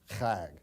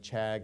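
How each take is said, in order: First: The first sound follows Hebrew pronunciation. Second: The first sound follows English spelling. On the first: The speaker calls it right. "if you consider how the Hebrews ... use the C and H together, it's pronounced chag" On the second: The speaker calls it wrong. "it's spelled using the English alphabet, C H A G, appears to be chag"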